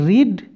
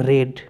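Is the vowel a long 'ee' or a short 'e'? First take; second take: long ee; short e. First: The vowel is a long 'ee' sound. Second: The vowel is a short 'e' sound. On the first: It is the present-tense form of the verb. "এটা হচ্ছে রিড" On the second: It is the third form of the verb. "এটা হচ্ছে রেড"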